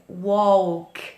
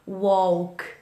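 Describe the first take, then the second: First: The L sound is pronounced before the K. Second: The L is silent, like W O K. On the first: The speaker calls it wrong. "a gente não fala é, walk" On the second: The speaker calls it right. "a gente não pronuncia o L, walk"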